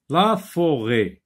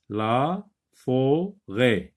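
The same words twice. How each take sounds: First: Said in the usual way. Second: "la forêt" very slowly, split la, fo, rêt; drawn-out "la... fo... rêt"; syllable by syllable. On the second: Shown as a demonstration. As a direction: break "la forêt" into separate syllables with pauses. Teacher splits word for pupils.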